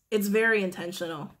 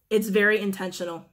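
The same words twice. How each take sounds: The two takes are said the same way.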